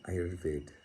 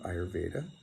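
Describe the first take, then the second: First: The word ends on a consonant, without final vowel. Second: The word ends with a final vowel sound.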